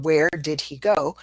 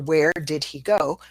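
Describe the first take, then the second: First: Each word is said fully, with the H. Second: The same.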